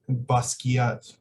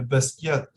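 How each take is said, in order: First: The name is said with an American pronunciation. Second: The name is said with a French pronunciation. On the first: "how American uh, Americans uh, pronounce it. I think they say Basquiat" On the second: "you should say uh, Basquiat. ... French uh, pronunciation"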